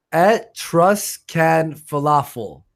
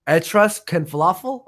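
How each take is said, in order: First: Etruscan falafel said slow and careful; pronounced correctly. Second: Etruscan falafel asked with a rise; rising check on Etruscan falafel; checking pronunciation. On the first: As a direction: spell out Etruscan falafel slowly. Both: Shown as a demonstration. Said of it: "It's pronounced".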